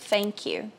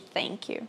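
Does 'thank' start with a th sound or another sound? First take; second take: another sound; th sound. First: The first sound is not a th sound. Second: The first sound is a th sound. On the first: This is an accent variant some people use. "você pode escutar pessoas falando thank you" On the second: This is the standard form. "ao invés de thank you"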